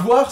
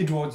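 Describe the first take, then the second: First: The name is said with French pronunciation. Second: The name is said with English pronunciation. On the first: This is not how the dub said it. "c'était pas" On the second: This is how the dub said it. "chaque fois qu'il y a un mot anglais, il y a un putain d'accent anglais"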